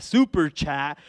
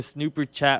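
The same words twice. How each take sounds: First: Said in the usual way. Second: Snooper chat, with an extra n, snoo-per; misread name. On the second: Real, not acted. Streamer misreads a viewer's super chat, snooper chat stumble.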